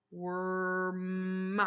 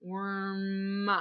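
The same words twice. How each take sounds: First: Worm stretched long to the end. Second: Said in the usual way. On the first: Shown as a demonstration. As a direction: drag out Worm to hear the M. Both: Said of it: "end of the word worm".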